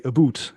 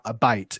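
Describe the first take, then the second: First: "a boot" with a rounded oo vowel like Canadians; Canadian about. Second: "A bite" with an oi vowel, exaggerated; exaggerated West Country. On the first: Teacher shows how Canadians say about. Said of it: "they would say". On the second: Teacher exaggerates his own Southwest vowel. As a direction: stretch "A bite" into an oi sound. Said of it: "I'm really exaggerating it now". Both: Shown as a demonstration.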